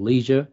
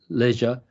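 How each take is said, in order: First: It is said with an American pronunciation. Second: It is said with a British pronunciation.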